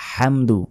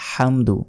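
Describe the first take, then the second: Both takes have the same delivery.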